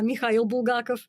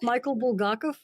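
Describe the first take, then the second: First: The name is said with a Russian pronunciation. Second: The name is said with an English pronunciation.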